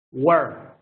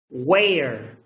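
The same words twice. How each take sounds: First: "were" short, r-coloured, like "wer". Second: "Where" with a long "ay" before the r. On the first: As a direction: clip "were" short against where. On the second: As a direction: open "Where" into "wayr". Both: Shown as a demonstration. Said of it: "This is the e".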